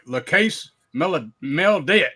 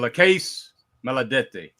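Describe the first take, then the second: First: It is said with an exaggerated Italian accent. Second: It is said with a Southern American accent. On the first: "I could be like" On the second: "that's my best attempt at it from a crazy ass down south Louisiana"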